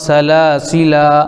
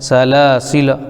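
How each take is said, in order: First: The final vowel is drawn out long. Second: The final vowel is kept short. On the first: The speaker calls it wrong. "इस तरीके से लिखा हुआ" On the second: The speaker calls it right. "लेकिन पढ़ा जाएगा"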